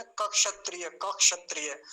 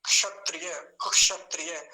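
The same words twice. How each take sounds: First: क क्षत्रिय with a full separate k, louder; full k, wrong. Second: क्षत्रिय with a faint half k, louder; barely touch the k in क्षत्रिय; light k, correct. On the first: Teacher imitates the student's wrong full k. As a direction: overdo the k before क्षत्रिय. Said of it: "आप क तो पूरा बोल रहे हैं". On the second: Teacher models the right light k for the student. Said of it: "बहुत हल्का सा उच्चारण आएगा". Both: Shown as a demonstration.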